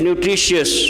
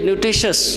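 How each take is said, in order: First: The word is said with a dip in it. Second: The word is said plainly, without a dip. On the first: The speaker calls it wrong. "why to give it that dip to make it nutritious?" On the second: The speaker calls it right. "It's very simple to say nutritious"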